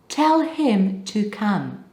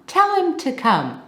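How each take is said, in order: First: The word him is said fully with its h. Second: The word him is reduced to im without h. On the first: The speaker calls it wrong. "Nobody speaks like that" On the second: The speaker calls it right. "That him becomes im"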